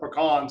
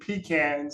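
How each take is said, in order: First: It is said in the Louisiana pronunciation. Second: It is said in a non-Louisiana pronunciation.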